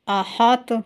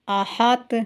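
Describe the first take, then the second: First: The final consonant bounces with a short vowel. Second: The same.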